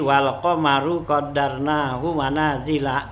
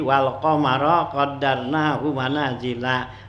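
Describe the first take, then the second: First: The word qamar ends with a 'u' vowel. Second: The word qamar ends with an 'a' vowel. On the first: The moon is the subject of the sentence. "dibacanya wal qamaru gitu ya" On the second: The moon is the object of the decreeing. "bacanya dengan nasab"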